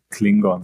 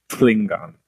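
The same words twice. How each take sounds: First: The word starts with a plain K sound. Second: The word starts with a breathy throaty TL sound. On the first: The speaker calls it wrong. "heißt nicht Klingon" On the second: The speaker calls it right. "mit seinem TL aber sehr behaucht in der Kehle"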